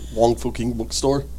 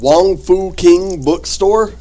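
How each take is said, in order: First: It is said very fast. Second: It is said at a normal pace.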